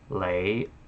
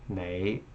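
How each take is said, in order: First: The word begins with an L sound. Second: The word begins with an N sound. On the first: "they use an L instead of an N" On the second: "an N sound"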